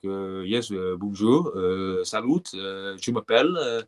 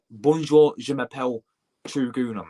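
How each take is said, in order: First: Slow French accent with hesitant uhs; put-on French accent. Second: French in a blunt English accent, punched first word. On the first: Streamer showing his exam tip, French accent. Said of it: "Speak in a French accent". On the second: Streamer showing how not to sound in French exam, English accent. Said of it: "you saying French and English". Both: Shown as a demonstration.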